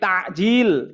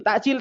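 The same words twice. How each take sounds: First: The middle consonant is a throat ain sound. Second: The middle consonant is a glottal stop. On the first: It means hastening to break the fast. The speaker calls it right. "Maka pakainya ain" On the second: It means delaying. The speaker calls it wrong. "orang Indonesia suka nyebutnya takjil"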